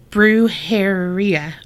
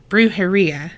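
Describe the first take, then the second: First: "brujeria" drawn out slowly, syllable by syllable; sounded out carefully. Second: Said in the usual way. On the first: Real, not acted. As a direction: feel your way slowly through "brujeria". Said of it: "She spelled it out for me". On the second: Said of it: "I still fucked it up".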